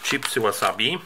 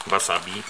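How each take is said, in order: First: "wasabi" said with an English w; English-style wasabi. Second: "Wasabi" said with a Polish v; "Wasabi" starting with a hard v sound; Polish-style wasabi. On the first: ("wasabi" z angielskim w na początku) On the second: ("Wasabi" z polskim w jak v) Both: Shown as a demonstration. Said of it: "Ja nie wiem, jak to wymawiać".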